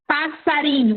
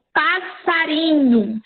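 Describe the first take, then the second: First: Said in the usual way. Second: "passarinho" stretched out slowly, syllable by syllable; slow demonstration. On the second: Shown as a demonstration. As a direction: spell out "passarinho" slowly for the class. ("passarinho" dito bem devagar, sílaba por sílaba) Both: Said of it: "vamos supor".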